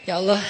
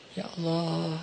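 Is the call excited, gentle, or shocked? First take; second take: excited; gentle. First: It is said in a cheerful, excited way. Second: It is said softly and gently, with feeling. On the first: The speaker is happy about something. The speaker calls it wrong. "Kalau lagi senang kayak ya Allah. Enggak, enggak gitu sih" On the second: The speaker is earnestly calling out to God. The speaker calls it right. "gitu pelan-pelan. Terus khusyuk manggilnya, berperasaan manggilnya"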